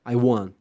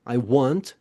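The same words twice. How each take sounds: First: The final T of want is dropped. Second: The final T of want is pronounced. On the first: "muitas vezes ele não é pronunciado" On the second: "Você pode pronunciar"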